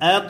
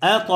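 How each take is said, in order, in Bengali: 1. শেষ ব্যঞ্জনটি প্রতিধ্বনির মতো ধাক্কা দিয়ে ছাড়া হয়। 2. শেষ ব্যঞ্জনটি প্রতিধ্বনির মতো ধাক্কা দিয়ে ছাড়া হয়।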